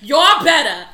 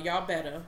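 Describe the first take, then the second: First: It is said in a put-on New York accent. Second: It is said in the speaker's ordinary voice.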